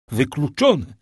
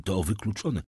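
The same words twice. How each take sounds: First: Louder, higher insistent repeat; emphatic exclamation. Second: Said in the usual way. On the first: A narrator's reading. Father refuses to believe the miracle, loud exclamation. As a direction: throw the word out forcefully.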